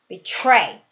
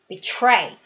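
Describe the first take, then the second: No difference in how they are said.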